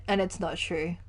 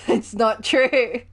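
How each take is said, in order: First: Said in the usual way. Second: Slow, laughing emphasis. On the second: Real, not acted. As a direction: laugh it out slowly, amused. Repeats with laugh, slower.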